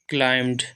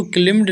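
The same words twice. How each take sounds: First: क्लाइम्ड said as "klaimd", long ai like "climb"; क्लाइम्ड with the "ai" of "time", silent b; correct pronunciation. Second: क्लिम्ड said as "klimd", short i and a voiced d; क्लिम्ड with a short i like "limb", not "climb"; wrong pronunciation. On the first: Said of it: "इसको पढ़ते हैं क्लाइम्ड". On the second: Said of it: "इसको क्लिम्ड नहीं पढ़ते हैं". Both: Shown as a demonstration.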